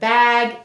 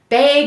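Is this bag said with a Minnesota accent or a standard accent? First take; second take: standard; Minnesota. First: It is said with a standard accent. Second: It is said with a Minnesota accent. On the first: "instead of" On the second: "we say"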